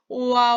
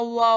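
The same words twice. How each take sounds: First: It is drawn out slowly, from o to a. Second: It is said quickly as one syllable.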